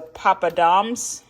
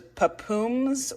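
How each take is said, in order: First: The word has a d sound before the ending. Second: The word has no d sound before the ending. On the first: "but that's a D" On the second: "I think I've been saying it wrong"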